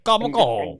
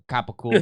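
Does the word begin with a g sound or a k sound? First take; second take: g sound; k sound. First: It starts with a g sound, voiced consonants. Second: It starts with a k sound, voiceless consonants. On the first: This is how some Italian Americans say it. "comes out like gabagool" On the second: This is the actual name of the meat. "It's actually capicool"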